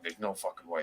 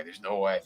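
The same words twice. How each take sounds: First: A lowered, quieter tough-guy aside; mock low murmur of disbelief; low mock Animal. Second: Said in the usual way. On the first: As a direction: drop into a hushed low voice for the big wrestler. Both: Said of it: "And Animal's like".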